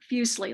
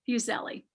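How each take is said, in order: First: It is said to sound like muesli. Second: It is said not sounding like muesli. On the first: This is how the speaker says the name. "as I've been saying it, Fuseli, like muesli" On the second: This is how some other people say the name. "Some people, however, say it"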